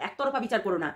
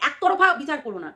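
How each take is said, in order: First: একতরফা said lower and softer, dropping away; a hushed একতরফা বিচার করো না; softer repeat. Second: একতরফা said hard, the line ending down; pressed appeal. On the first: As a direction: repeat it quietly, as a soft plea. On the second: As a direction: stress on একতরফা with a falling end. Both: Shown as a demonstration. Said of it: "তোমরা viewers তো".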